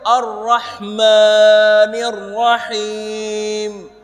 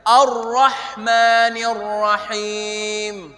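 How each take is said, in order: First: A vowel is drawn out extra long. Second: The vowels are kept at normal length. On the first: The speaker calls it wrong. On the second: The speaker calls it right.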